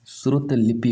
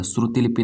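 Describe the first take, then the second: First: श्रुत लिपि as "shrut lipi"; correct form without "i". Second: श्रुति लिपि as "shruti lipi"; wrong extra "i". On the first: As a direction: stop श्रुत on a t before लिपि. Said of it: "होता है". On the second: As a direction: sound the final "ti" in श्रुति लिपि. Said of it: "नहीं होता है". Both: Shown as a demonstration.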